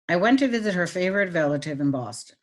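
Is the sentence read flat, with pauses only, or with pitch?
flat. It is read flatly, with no pauses or pitch changes. "I'm going to read it with no meaning"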